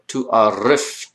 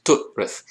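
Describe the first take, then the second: First: Tu arif said slowly as two parts, rising on arif; wrong form. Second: Tu'rif said as two syllables, tu then rif, breathed; correct form. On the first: Teacher showing students the wrong reading tu arif, slow. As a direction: drag out tu arif as a mistaken reading. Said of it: "Or tu arif". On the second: Teacher correcting the students' reading to tu'rif, breathy. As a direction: say tu'rif as one tight word. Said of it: "No, it's tu'rif". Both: Shown as a demonstration.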